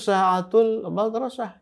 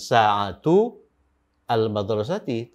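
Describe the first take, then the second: First: The 'a' of 'al' is dropped and linked. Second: The 'a' of 'al' is pronounced separately. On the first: The speaker calls it right. "alif sambung ini atau hamzah wasol ini itu tidak dibaca" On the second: The speaker calls it wrong. "membacanya bukan sa'atu al-madrasati"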